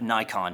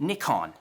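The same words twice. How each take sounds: First: The first syllable sounds like 'nye'. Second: The first syllable sounds like 'nick'. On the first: The speaker calls it wrong. "like the Luddites here in America" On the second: The speaker calls it right. "with a slight British accent"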